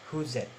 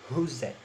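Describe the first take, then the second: First: The th sound merges into the preceding z. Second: The th sound merges into the preceding z.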